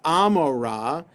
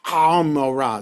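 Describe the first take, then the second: First: It begins with a plain, smooth vowel. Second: It begins with a harsh sound from the throat.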